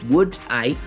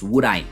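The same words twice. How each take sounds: First: The D is kept separate from the next vowel. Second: The D runs straight into the next vowel. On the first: "The D"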